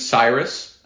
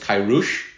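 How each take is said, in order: First: The name begins with an S sound. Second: The name begins with a K sound. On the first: This is the usual English form of the name. The speaker calls it wrong. "does not sound anything like the guy's actual name" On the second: This is the name the king actually had. The speaker calls it right. "His name was Kairush"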